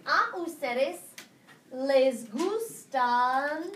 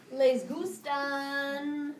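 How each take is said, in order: First: Very slow drawn-out les gustan; teacher dictating a question at a crawl; slow dictation. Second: Very slow drawn-out Les gustan; teacher repeating the corrected words slowly; slow dictation. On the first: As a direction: stretch each syllable for note-taking. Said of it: "answer this question". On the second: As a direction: stretch it out as you write. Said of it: "Thank you". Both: Shown as a demonstration.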